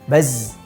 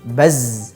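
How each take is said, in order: First: The final z sound is cut off short. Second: The final z sound flows on continuously. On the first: The speaker calls it wrong. "kurang mengalir suaranya" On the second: The speaker calls it right. "Tapi harus baz"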